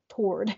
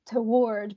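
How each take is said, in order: First: The word is said in a Southern American pronunciation. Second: The word is said in a British pronunciation. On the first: "here in the South we just say toward" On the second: "she's writing obviously in a British accent. And so, she says toward"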